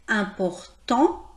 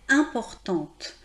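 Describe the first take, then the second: First: The final T sound is silent. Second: The final T sound is pronounced. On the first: The speaker calls it right. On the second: The speaker calls it wrong.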